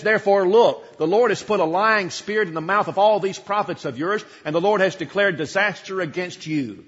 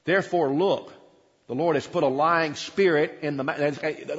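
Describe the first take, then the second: First: Louder, pointed, accusing declaration; bold pronouncement. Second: Said in the usual way. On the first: Acted. Micaiah pointing at the prophets, loud and accusing. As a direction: jab a finger at them and declare it. You can see him point his finger. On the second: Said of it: "read from the text first".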